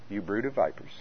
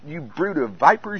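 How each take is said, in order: First: It is said weakly, without much emotion. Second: It is said forcefully, with strong emotion.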